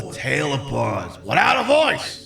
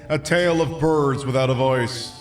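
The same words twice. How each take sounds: First: It is read in a put-on impression voice. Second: It is read in the speaker's ordinary voice.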